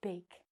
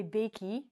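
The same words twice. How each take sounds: First: "bake" as one syllable, long a, no final vowel; "bake" spoken short and soft, silent e; correct pronunciation. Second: "bakey" with an extra ee sound on the end; "bakey" with the silent e voiced as ee; wrong pronunciation. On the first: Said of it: "we say". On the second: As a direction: say "bakey" as two syllables, bay-kee. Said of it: "we do not say". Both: Shown as a demonstration.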